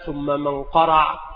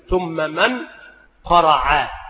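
First: The n sound is hidden, blending into the next sound. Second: The n sound is clearly and separately pronounced. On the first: "هكذا مع الإخفاء" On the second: "ونظهر النون وحقها الإخفاء"

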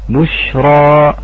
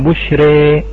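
First: A heavy r with an open final 'a'. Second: A light r with the final vowel strongly toward 'e'. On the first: "راء مفخمة كما هي الآن" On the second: "والإمالة الكبرى"

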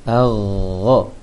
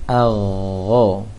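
The two takes are said the same way.

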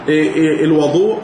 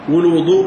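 First: The first vowel is an open a. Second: The first vowel is a rounded u. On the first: It names the water used for ablution. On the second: It names the act of ablution.

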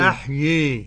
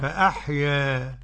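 First: The final vowel leans strongly toward i. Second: The final vowel leans slightly toward i. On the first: "والإمالة بقى أن تنحو بالألف نحو الياء كثيرا" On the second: "تقليل"

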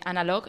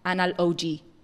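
First: The name is said smoothly as one word. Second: The name is split into two separate parts. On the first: "en lugar de Analog" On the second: "sería Anal-OG. lo único que cambia es la pronunciación"

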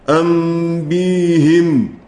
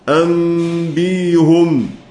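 First: The h is pronounced with an i vowel. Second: The h is pronounced without an i vowel. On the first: It matches the preceding y sound. "كسر الهاء لتجانس الياء" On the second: It keeps the original form. "وهو الأصل"

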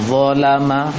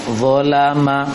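The two takes are said the same way.

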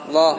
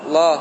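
The two takes are said the same way.

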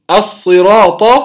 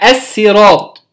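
First: The word begins with an emphatic s sound. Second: The word begins with a z-tinged emphatic s. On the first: "أو تقرأ بالصاد" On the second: "أو تقرأ بالصاد المشمة زايا"

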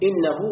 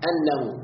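First: The first vowel is i, giving innahu. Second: The first vowel is a, giving annahu. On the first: It starts a new statement. "بالكسر استئنافا" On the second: It gives the reason, meaning because. "والفتح على تقدير الله، أنه يعني لأنه"

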